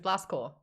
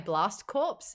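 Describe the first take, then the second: First: The last word ends without p and s sounds. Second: The last word ends with p and s sounds. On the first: The speaker calls it right. "But it was Blast Core" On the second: The speaker calls it wrong. "I pronounced it as corpse"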